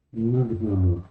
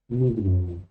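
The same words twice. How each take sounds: The two takes are said the same way.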